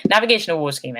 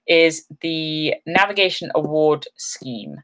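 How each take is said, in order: First: Said in the usual way. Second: Navigation Award Scheme said slowly, every word spelled out; slow careful naming. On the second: Shown as a demonstration.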